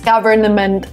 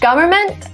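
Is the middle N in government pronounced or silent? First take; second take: pronounced; silent. First: The middle N sound is pronounced clearly. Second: The middle N sound is left out. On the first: The speaker calls it wrong. "Government would be too much" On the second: The speaker calls it right. "Here we don't pronounce the N in the middle. Government sounds okay"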